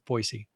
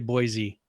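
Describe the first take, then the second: First: The name is pronounced the way locals say it. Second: The name is pronounced the way outsiders say it. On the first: The speaker is from the area. The speaker calls it right. "and it's not Boise. It's Boise" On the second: The speaker is not from the area. The speaker calls it wrong. "If if you're not from here, you would say Boise"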